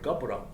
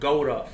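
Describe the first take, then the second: First: The middle consonant is a B sound. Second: The middle consonant is a W sound. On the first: This is the speaker's own group's pronunciation of the word. "So we say the word Gabra" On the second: This is the other group's pronunciation of the word. "you guys say the word Gouda for man"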